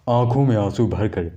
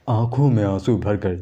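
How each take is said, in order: Both takes have the same delivery.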